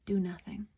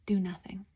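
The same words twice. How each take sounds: First: Said in the usual way. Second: Whispered. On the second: Shown as a demonstration. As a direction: whisper it, unvoiced.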